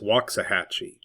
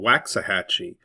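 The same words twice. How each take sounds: First: The name is said in the local way. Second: The name is said the way it looks written. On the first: The speaker calls it right. "but it's" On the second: The speaker calls it wrong. "It looks like it's spelled"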